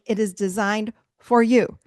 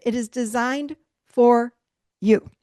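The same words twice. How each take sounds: First: Said in the usual way. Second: Slow "It is designed for", pause, then "you." punched; stressed pause before you. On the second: Shown as a demonstration. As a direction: hold back, then land on "you.".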